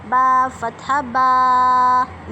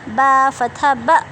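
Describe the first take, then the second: First: The final vowel is drawn out long. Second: The final vowel is cut off with a jerk. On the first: "हरूफ को लंबा नहीं करना हमने, ठीक है। जैसे बा फतहा बा, नहीं ऐसे नहीं पढ़ना" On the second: "और ना ही झटका देना, जैसे ... ऐसे नहीं करना"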